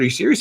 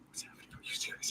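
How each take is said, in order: First: Higher, incredulous question; openly incredulous, raised pitch; voiced disbelief. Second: Whispered aside, barely audible; tiny incredulous whisper; hushed disbelief. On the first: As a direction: ask it out loud, pitched up. Repeats the question aloud. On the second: Retold or imitated. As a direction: whisper it as if stunned.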